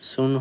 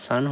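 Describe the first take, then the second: First: The vowel sounds like 'oo'. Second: The vowel sounds like 'ah'. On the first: The speaker calls it wrong. "সুন হলো না কেন" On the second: The speaker calls it right. "sun হলো"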